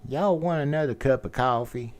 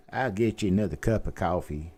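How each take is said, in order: First: Mid-South accent. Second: Light Memphis accent, "coffee" as kʰaʊfi; a hint of a Tennessee waitress; Mid-South accent. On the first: Showing his best Mid-South accent, a waitress offering coffee. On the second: Mid-South waitress offering more coffee, lightly done. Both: Shown as a demonstration. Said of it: "accent would be Mid-South".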